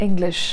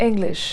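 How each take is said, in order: The two takes are said the same way.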